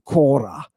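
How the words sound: The first vowel is a short o. This is the Doric form. "I pronounce it like the Dorians do"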